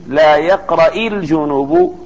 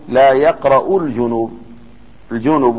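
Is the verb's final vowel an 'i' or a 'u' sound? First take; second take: i; u. First: The verb ends with an 'i' vowel. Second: The verb ends with a 'u' vowel. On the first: It is a prohibition against reciting. "فحرك بالكسر لالتقاء الساكنين" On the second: It is a statement that one does not recite. "وبضمها على الخبر"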